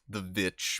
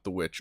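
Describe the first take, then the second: First: The word begins with a V sound. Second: The word begins with a W sound.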